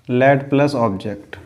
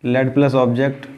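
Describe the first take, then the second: No difference in how they are said.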